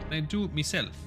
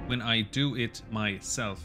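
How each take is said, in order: First: It is said in a put-on Irish accent. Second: It is said in the speaker's usual accent.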